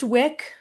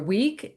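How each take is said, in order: First: The vowel is short, like in 'wick'. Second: The vowel is long, like in 'weak'. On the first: The speaker calls it right. "pronounced Wick" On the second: The speaker calls it wrong. "people mispronounce my name and say Laura Week"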